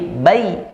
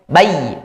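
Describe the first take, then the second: First: The diphthong is pronounced softly and smoothly. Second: The diphthong is pronounced harshly, not softly. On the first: The speaker calls it right. "tapi bai, lembut" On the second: The speaker calls it wrong.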